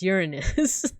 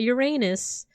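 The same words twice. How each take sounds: First: The ending does not sound like 'anus'. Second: The ending sounds like the word 'anus'. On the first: This is the version that avoids the joke. The speaker calls it right. "It's Uranus" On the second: This is the version that makes kids laugh. The speaker calls it wrong. "It's not Uranus"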